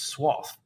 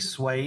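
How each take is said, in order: First: It is said in the American way. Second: It is said in the non-American way. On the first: "I think the American version is swath" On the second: "I say swathe"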